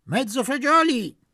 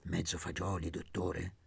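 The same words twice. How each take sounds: First: Much higher and louder bellow; full shout of the order. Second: Much softer and lower, hushed; mock-confidential hush. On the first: Acted. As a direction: yell the order across the room. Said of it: "gridò". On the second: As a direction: murmur it like a secret. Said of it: "a bassissima voce".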